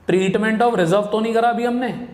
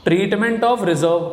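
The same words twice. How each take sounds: First: Said in the usual way. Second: Slow dictation pace, word by word. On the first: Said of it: "same words again at normal speed". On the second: Shown as a demonstration. Teacher spelling out the topic name to students, very slow. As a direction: draw out each word, very slowly, as if writing it on the board. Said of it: "teacher slowly reading topic out".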